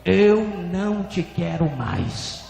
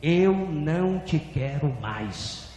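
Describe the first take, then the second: First: Slow, louder pronouncement, heavy first word; drawn-out, firm and forceful; stronger divine voice. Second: Drawn-out, slow pronouncement; measured, falling, stretched words; divine voice repeating. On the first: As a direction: repeat the verdict with more force. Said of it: "a voz repetiu mais forte". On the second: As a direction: speak it slowly as God's verdict. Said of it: "E a voz repetiu". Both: Retold or imitated.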